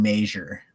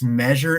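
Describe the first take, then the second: First: "measure" said as MAY-zher; long "ay" in the first syllable of "measure"; mispronounced measure. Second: "measure" said as MEH-zher; short "eh" in the first syllable of "measure"; standard measure. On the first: Retold or imitated. Host mimicking people who annoy him, "measure" as MAY-zher. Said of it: "people that say". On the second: Shown as a demonstration. Host correcting those who say MAY-zher, "measure" as MEH-zher. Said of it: "stop it".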